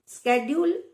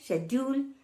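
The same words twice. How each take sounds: First: It is said with an American accent. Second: It is said with a British accent.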